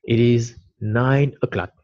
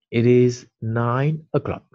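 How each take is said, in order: First: Said in the usual way. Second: Slow, each word laid out for pupils; slow model repeat. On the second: Shown as a demonstration. Teacher repeats the sentence slowly for the class. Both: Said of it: "Vous l'avez en vert".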